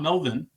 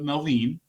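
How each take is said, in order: First: The name is said the usual English way. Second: The name is said a non-English way. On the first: The speaker calls it wrong. "not Melvin, like we would pronounce it" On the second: The speaker calls it right. "but Melvin"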